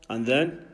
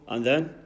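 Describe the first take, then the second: No difference in how they are said.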